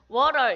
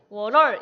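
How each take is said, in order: First: The stress is on the first syllable. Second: The stress is on the second syllable. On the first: The speaker calls it right. "이렇게 워에 강조를 하지" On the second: The speaker calls it wrong. "이렇게 안 하잖아요"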